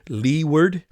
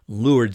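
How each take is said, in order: First: It is pronounced just as it is spelled. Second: It is pronounced the way sailors say it. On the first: "it looks like it is leeward" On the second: "sailors all always say leeward side"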